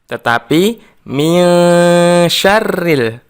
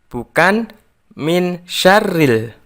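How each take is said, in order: First: The n is hidden with a nasal hum. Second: The n is pronounced as a clear n. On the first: The speaker calls it right. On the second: The speaker calls it wrong.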